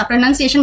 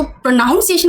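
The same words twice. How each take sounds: First: प्रोनाउंसिएशन with a short "nun" syllable; correct pronunciation. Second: प्रोनाउंसिएशन with "noun" in the middle; mispronounced word. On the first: Sure of the right word now, pronounced with "nun". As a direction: say प्रोनाउंसिएशन as "pro-nun-ciation". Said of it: "confident आ गया कि अच्छा". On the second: Showing what others say wrong, mispronounced with "noun". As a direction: say प्रोनाउंसिएशन as "pro-NOUN-ciation". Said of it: "वो गलत बोलते हैं". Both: Shown as a demonstration.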